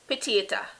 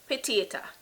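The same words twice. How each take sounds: No difference in how they are said.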